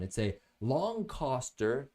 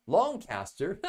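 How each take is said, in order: First: Said in the usual way. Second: Longcaster said the British way, Longcaster with a British lilt; British accent. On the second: Shown as a demonstration. Reviewer slipping into a British accent on Longcaster. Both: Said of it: "Slipped into my British accent".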